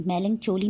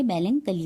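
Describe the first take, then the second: First: मेलनचोली with a "ch" sound, as in chose; wrong pronunciation. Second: मेलनकली with a hard "k" sound; correct pronunciation. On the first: Teacher showing learners what not to say, मेलनचोली mispronounced with "ch". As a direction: say मेलनचोली with CH in place of K. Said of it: "इसको मेलनचोली नहीं बोलेंगे". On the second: Teacher giving learners the word to say, मेलनकली with a hard "k". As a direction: say मेलनकली with K where "ch" is written. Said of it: "मेलनकली बोलेंगे". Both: Shown as a demonstration.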